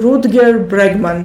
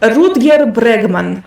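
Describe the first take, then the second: First: The name is said with an English pronunciation. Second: The name is said with a Russian pronunciation. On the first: "I pronounce it uh" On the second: "in Russian I'd say"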